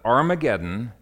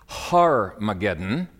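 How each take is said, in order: First: The word begins with a vowel sound. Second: The word begins with an h sound. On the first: The speaker calls it right. "Armageddon is the Hebrew pronunciation" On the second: The speaker calls it wrong. "Some try to make this Har-mageddon"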